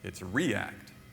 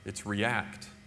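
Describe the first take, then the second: First: The stress is on the first syllable. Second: The stress is on the second syllable.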